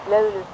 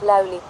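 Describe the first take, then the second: First: The first vowel is a rounded front vowel. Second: The first vowel is an unrounded front vowel. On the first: The speaker calls it right. "löyly, not läyli" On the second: The speaker calls it wrong. "not läyli"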